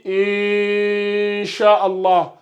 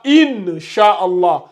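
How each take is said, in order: First: The n sound is hidden with light nasalization. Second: The n sound is pronounced fully and clearly. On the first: The speaker calls it right. "On dit" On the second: The speaker calls it wrong. "On ne dit pas"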